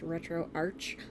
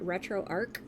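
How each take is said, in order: First: The name ends with a 'ch' sound. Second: The name ends with a 'k' sound. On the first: This is how everyone else says it. "I guess it's pronounced Retro Arch" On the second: This is how the speaker has always said it. "I've always called it Retro Arc"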